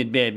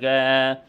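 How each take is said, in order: First: Said in the usual way. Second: آه as a long bare vowel, both b sounds gone; child's آه without consonants; plosives deleted. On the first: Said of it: "زي كلمة باب". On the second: Shown as a demonstration. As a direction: say آه, only the long aa left. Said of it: "إلغاء السواكن الانفجارية".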